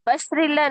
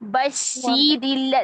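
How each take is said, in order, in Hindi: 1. "sh" के बाद का स्वर छोटा बोला जाता है। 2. "sh" के बाद का स्वर पूरी लंबाई से बोला जाता है। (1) "बशरिल्ला नहीं" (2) "शी पूरा करें"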